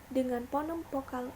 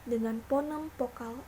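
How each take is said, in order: Both takes have the same delivery.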